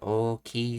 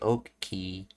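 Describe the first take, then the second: First: The word is said in a plain, neutral way. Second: The word is said with strong, emphatic force. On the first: "Instead of saying Oki" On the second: "this is a emphatic way of saying Oki"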